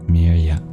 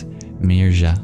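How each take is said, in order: First: The middle consonant is a smooth y glide. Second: The middle consonant is a breathy, aspirated y. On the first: "if it represents a palatal semivowel" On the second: "If it represents a palatal aspirated approximant"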